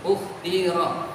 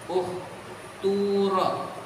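First: The middle vowel is a clear i sound. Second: The middle vowel is a clear u sound.

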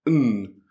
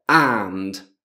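First: The word is reduced to just an n sound. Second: The word is said fully with its vowel and final d. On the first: The word links other words in normal speech. "di solito diventa n" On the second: The word is said on its own or emphasized. "Se dobbiamo pronunciarlo da solo"

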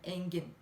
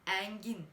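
First: The first vowel is a closed e. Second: The first vowel is an open e. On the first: The speaker calls it right. "Bu kapalı E'dir" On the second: The speaker calls it wrong. "Bakın engin demiyorum"

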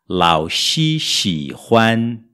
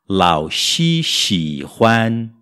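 Both takes have the same delivery.

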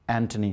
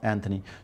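First: It is said the standard English way. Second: It is said the common local way. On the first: The speaker calls it right. "like we just mentioned, Anthony" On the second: The speaker calls it wrong. "not Anthony"

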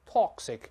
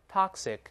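First: It is said in a British accent. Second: It is said in an American accent. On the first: "当然英国人读成toxic" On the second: "美音中"

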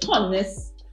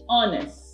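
First: The word begins with an audible H sound. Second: The word begins directly with a vowel sound. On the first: The speaker calls it wrong. "You don't say honest" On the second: The speaker calls it right. "you say honest. You get the O-N sound"

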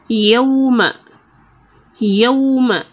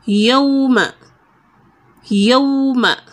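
No difference in how they are said.

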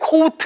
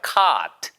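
First: The vowel is said short and clipped. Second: The vowel is said long and drawn out. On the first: The speaker calls it wrong. "절대 caught 아니에요" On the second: The speaker calls it right. "caught이에요"

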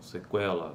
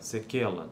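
First: The k sound is followed by a w glide. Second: The k sound has no w glide after it. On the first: The speaker calls it right. "a consoante complexa" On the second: The speaker calls it wrong. "não"

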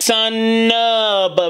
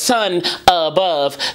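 First: The final N runs straight into the next word. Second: The two words are said separately, not blended. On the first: "She blended the last letter of sun" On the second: "instead of"

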